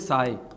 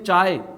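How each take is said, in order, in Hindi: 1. शब्द 's' ध्वनि से शुरू होता है। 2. शब्द 'ch' ध्वनि से शुरू होता है। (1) "चाय को कुछ लोग बोलते हैं साय" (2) "जैसे अपन बोलते हैं चाय"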